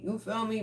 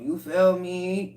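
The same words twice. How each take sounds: First: Higher and softer, tossed off; quick soft echo. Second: Slow emphatic question. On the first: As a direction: repeat it lightly, almost to yourself. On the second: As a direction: draw it out for emphasis. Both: Shown as a demonstration.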